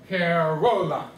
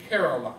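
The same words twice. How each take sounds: First: Caroline stretched slowly with the middle RO drawn out; misplaced emphasis. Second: Caroline with the first syllable CA stressed, the rest quicker; stress on initial sound. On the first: Teacher switching the rhythm around to test students, misplaced emphasis. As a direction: lean on the wrong syllable, ca-ROOO-line. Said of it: "Does that sound right?". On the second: Teacher asking students where the emphasis is, stress on first syllable. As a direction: say CA-roline in its natural rhythm. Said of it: "the initial sound". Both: Shown as a demonstration.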